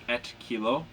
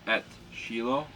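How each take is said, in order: First: The word starts with a hard k sound. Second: The word starts with a soft sh sound. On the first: The speaker calls it wrong. "looks like" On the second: The speaker calls it right. "but it'll be"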